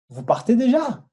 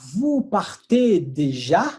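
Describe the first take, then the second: First: The sentence is spoken faster. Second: The sentence is spoken slowly. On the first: "un petit peu plus rapide maintenant" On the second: "eu vou falar devagar e rápido"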